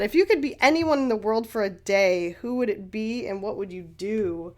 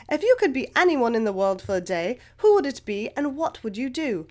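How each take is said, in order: First: Said in the usual way. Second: Attempted English accent, reading a question; best English accent. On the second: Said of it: "in my best English accent".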